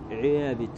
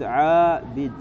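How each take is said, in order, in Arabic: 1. الحركة الطويلة تميل نحو صوت 'ee'. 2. الحركة الطويلة 'a' مفتوحة وصريحة. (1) "يعني الألف تجعلها مثل الياء" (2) "لو قلت عابد يعني صعدت ثم نزلت وسفلت"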